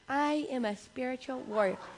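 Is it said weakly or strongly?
weakly. It is said weakly, without conviction.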